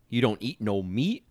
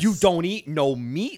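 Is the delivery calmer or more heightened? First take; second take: calmer; heightened. First: The question is said at a calmer level. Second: The question is said higher and more heightened. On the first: "she changes, like, the tone of it just slightly when she repeats it" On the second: "it just gets a little bit more like elevated"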